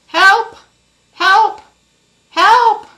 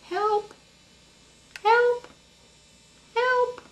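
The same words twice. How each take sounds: First: It is called a little louder. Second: It is called very quietly.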